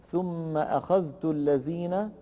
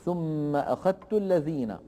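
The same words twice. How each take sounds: First: Measured "ثم أخذت الذين", dhal and ta kept separate; unmerged form. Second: "ثم أخذت الذين" pronounced as akhattu; merged form. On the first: Teacher gives the form before merging, "أخذت" with dhal pronounced. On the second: Teacher shows Warsh's merging, "أخذت" with doubled t. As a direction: say "أخذت" with the dhal absorbed into a doubled ta. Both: Shown as a demonstration. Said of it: "تصبح".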